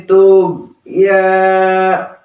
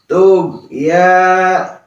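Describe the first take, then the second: No difference in how they are said.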